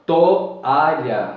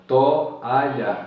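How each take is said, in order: First: Said in the usual way. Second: Toalha said slowly as to-a-lha, vowels apart; split syllables. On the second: Shown as a demonstration. Teacher splitting toalha into syllables. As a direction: separate to from a in toalha. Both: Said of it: "Veja que to".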